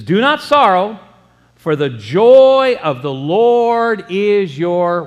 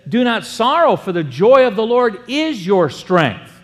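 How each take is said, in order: First: Slow, louder, stretched toward the missing word; preacher pausing so the congregation fills in the blank; drawn-out build-up. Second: Said in the usual way. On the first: Acted. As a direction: hold each word and leave a gap for the crowd to finish. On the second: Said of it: "But he says that".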